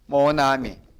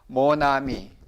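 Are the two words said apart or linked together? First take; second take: linked; linked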